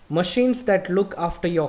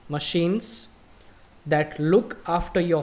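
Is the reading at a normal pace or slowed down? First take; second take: normal; slowed down. First: It is read at a normal speaking pace. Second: It is read more slowly and carefully. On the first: "So this is how people read. This is how we speak" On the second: "but this time I'll slow down"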